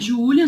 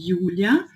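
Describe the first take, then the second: First: The name is pronounced the Portuguese way. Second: The name is pronounced the German way. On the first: "Meu nome é Júlia" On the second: "se eu falo em alemão"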